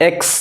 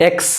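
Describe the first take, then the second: Both takes have the same delivery.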